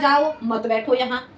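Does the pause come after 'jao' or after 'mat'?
after jao. The pause comes after the word 'jao'. Go, don't sit here. "मैंने सुना ... ध्वनि के कारण परिवर्तन में सुना"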